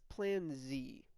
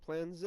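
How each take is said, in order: First: The letter is said as zee. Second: The letter is said as zed. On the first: The speaker calls it right. "whatever American calls it for the last letter of the alphabet" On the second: The speaker calls it wrong. "It's not"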